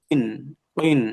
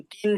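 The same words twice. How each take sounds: First: Short model কিন with heavy qaf; correct qaf. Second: কিন with a light front k; কিন as a plain k, not qaf; mistaken kaf. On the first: Shown as a demonstration. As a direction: articulate কিন from the back of the tongue. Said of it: "এখানে কফ দুইজের". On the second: Retold or imitated. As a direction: imitate the student's কিন with kaf. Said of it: "কাফ দুইজের কিন মতো শোনা গেছে".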